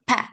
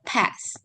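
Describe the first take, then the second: First: The final s sound is left off. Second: The final s sound is pronounced. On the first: "deletion of final consonants" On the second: "instead of"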